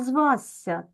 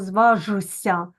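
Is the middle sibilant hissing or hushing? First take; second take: hissing; hushing. First: The middle sibilant is a soft hissing 's'. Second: The middle sibilant is a hushing 'zh' sound. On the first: The speaker calls it right. "ми кажемо звася" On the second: The speaker calls it wrong. "Ми ж не кажемо зважуся"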